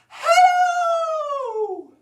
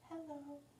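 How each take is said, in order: First: It is said very loudly. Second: It is said very quietly.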